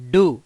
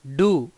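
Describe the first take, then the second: First: డు said with a pressed, doubled డ్డ, a bit louder; doubled consonant stressed. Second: Said in the usual way. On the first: Shown as a demonstration. (ఒత్తి పలకడం, డు గట్టిగా) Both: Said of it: "కొంచెం ఒత్తి పలకాలి".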